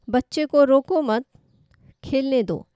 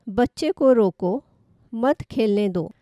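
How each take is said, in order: First: There is a pause right after 'mat'. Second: There is a pause right after 'roko'.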